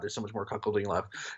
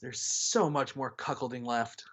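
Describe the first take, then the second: First: It is said in a weary, dismayed tone. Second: It is said in a wistful, longing tone. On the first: The writer dreads more of it. "he's like, "Oh God" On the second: The writer wants more of it. "reading that with like a longing like voice"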